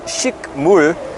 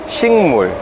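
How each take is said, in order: First: A k sound comes before mul. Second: An ng sound comes before mul. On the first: The speaker calls it wrong. "spelled as shikmul" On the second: The speaker calls it right. "but it's pronounced as shingmul"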